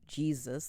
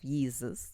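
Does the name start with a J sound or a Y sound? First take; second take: J sound; Y sound. First: The name begins with a J sound. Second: The name begins with a Y sound. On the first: The speaker calls it wrong. "the way we pronounce it" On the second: The speaker calls it right. "Would have been a closer pronunciation"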